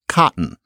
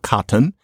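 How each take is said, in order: First: The middle t is a catch in the throat. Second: The middle t is a full t sound. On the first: The speaker calls it right. "You change it to cotton" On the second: The speaker calls it wrong. "then it's not cotton"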